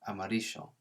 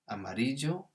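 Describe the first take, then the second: First: The double L is said as a sh sound. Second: The double L is said as a j sound. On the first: "or a Sh sound" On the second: "a J sound"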